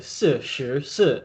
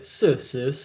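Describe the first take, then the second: First: The middle syllable begins with an sh sound. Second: The middle syllable begins with an s sound. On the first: The speaker calls it right. "they're meant to say s sh s" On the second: The speaker calls it wrong. "but they say s s s"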